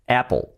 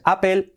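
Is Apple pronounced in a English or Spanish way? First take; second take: English; Spanish. First: It is said the English way with a strong L. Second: It is said with Spanish vowels and a weak L. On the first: The speaker calls it right. "sino es Apple" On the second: The speaker calls it wrong. "no es Apple"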